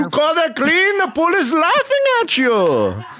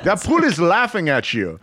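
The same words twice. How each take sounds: First: Very high, loud mock yell; outraged Israeli dad. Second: Higher, scolding dad impression; tough Israeli dad. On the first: Israeli dad yelling about a dirty pool, hammed-up fury. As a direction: imitate a furious Israeli father shouting. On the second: Israeli dad scolding over the pool, mildly heated mock voice. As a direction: imitate a stern Israeli father's complaint. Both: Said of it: "hardcore Israeli tough guy".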